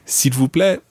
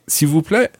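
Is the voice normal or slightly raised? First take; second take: normal; raised. First: It is said at a normal level. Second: It is said with the voice slightly raised.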